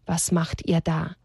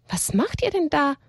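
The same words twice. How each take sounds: First: Understated, drawn-out scornful quote; quoting a dumb question. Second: Higher-pitched surprise question from above; lightly voiced stranger calling down, higher; mysterious unseen voice. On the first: Retold or imitated. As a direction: repeat the silly question slowly. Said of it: "fragen dann noch so dumm". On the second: A narrator's reading. Unseen voice startles both characters.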